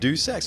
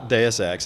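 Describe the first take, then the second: First: Run together so it sounds like 'do sex'. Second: Said as two words, 'Deus' then 'Ex'. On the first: The speaker misses the reference. The speaker calls it wrong. "they're going to mispronounce it do sex" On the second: The speaker gets the reference. The speaker calls it right. "if people pronounce it Deus Ex and they get it"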